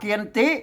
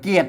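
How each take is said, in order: First: The word is said with two full syllables. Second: The word is said as one short syllable. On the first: "อ่านว่าพาเกียนติ" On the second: "ภาษาไทยบนอ่านเป็นเกียรติ"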